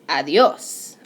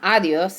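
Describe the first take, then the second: First: The stress falls on the last syllable. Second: The stress falls before the last syllable. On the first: The speaker calls it right. "I have the emphasis right there on that last syllable" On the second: The speaker calls it wrong. "it's not adios"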